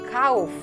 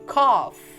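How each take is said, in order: First: The word is read the Indonesian way. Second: The word is read the English way. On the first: The speaker calls it wrong. "Jangan bilang cough" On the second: The speaker calls it right. "tetapi cough"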